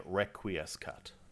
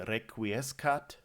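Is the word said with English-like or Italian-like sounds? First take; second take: English-like; Italian-like. First: It is said with English-like sounds and plain R. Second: It is said with Italian-like sounds and rolled R. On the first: It uses the sounds of the learner's own language. "they let you say requiescat or something like that" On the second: It follows the likely ancient pronunciation. "So they don't say requiescat"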